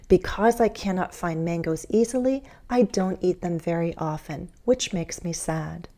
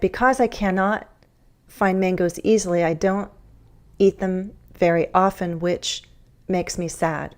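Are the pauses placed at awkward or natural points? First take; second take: natural; awkward. First: Pauses fall between whole thought groups. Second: Pauses break the phrases at odd points. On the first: The speaker calls it right. "It flows so much more nicely and easily when I use thought groups" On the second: The speaker calls it wrong. "That kind of awkward breaking doesn't make the idea flow nicely"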